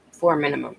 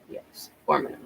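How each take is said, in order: First: Said in the usual way. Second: "four minimum" whispered softly under breath; whispered aside. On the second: Shown as a demonstration. Repeats the minimum for emphasis.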